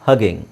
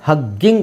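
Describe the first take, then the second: First: The middle g sound is single and short. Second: The middle g sound is doubled and held long. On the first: The speaker calls it right. "So ಒತ್ತಿ ಹೇಳೋ ಅವಶ್ಯಕತೆ ಇಲ್ಲ" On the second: The speaker calls it wrong. "ಎರಡು ಜಿ ಇದೆ, ಹಗ್ಗಿಂಗ್ ಅಲ್ಲ"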